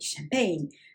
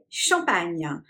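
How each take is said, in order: First: It is pronounced with English sounds. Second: It is pronounced with French sounds. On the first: The speaker calls it wrong. "In France, you never say champagne" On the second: The speaker calls it right. "We say champagne"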